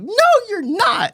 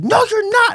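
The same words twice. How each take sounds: First: High, slow mock insistence; mock dad denying it again, slow; stubborn dad. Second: High, louder mock insistence; mock dad denying it; stubborn dad. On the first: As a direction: drag out the denial, high. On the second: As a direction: throw it back at him, high and stubborn. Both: Dad's yelling blowout on phone.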